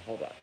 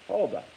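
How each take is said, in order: First: Said in the usual way. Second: High loud hold on. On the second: Real, not acted. Cutting off his own rant to read a comment, high and loud. Repeats it with emphasis.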